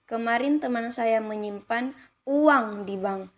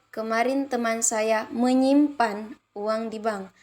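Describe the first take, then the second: First: The stress falls on the word uang. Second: The stress falls on the word menyimpan. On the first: "kalimat kelima uang" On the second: "kalimat keempat menyimpan"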